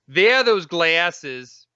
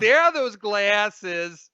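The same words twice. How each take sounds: First: Slow, louder, oddly stressed reading; odd slow drawl. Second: Much higher, slow medium voice; Long Island Medium. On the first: Husband imitating his girlfriend's weird delivery, slow sing-song. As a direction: stretch it out slowly in a strange sing-song. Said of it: "What did you just say?". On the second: Man mimicking girlfriend's medium-like line, high and slow. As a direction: croon it like a TV psychic. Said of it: "the Long Island Medium". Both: Retold or imitated.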